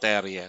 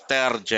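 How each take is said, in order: First: The j is sounded like an English y. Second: The j is sounded like an English j. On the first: This is the original Norwegian way of saying the name. "and not Terje" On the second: This is the local, adapted way of saying the name. "he likes it pronounced as Terje"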